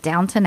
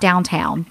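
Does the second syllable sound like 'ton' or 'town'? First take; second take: ton; town. First: The second syllable sounds like 'ton'. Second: The second syllable sounds like 'town'. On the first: The speaker calls it right. "but Downton Abbey" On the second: The speaker calls it wrong. "Not downtown"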